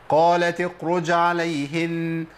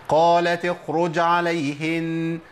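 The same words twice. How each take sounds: No difference in how they are said.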